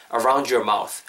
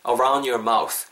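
First: "around your" said as "aroun-jer"; d-y blended to j. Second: "around your" run together as "aroun-yer", d dropped; dropped d linking. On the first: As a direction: link "around your mouth" with a j sound. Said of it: "둘 다 됩니다". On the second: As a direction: link "around your mouth" with a y glide. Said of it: "혹은 around your가 around your". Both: Shown as a demonstration.

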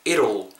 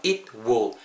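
First: "it'll" run together as one word, like "이룰"; contracted it'll. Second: Said in the usual way. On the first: Shown as a demonstration. Teacher showing learners how it will joins up, contracted "it'll". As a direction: blend "it'll" into one smooth "ee-rul". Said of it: "it will이 붙으면서 it'll 이렇게 정도로 발음". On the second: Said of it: "대명사 it이랑 붙으면서".

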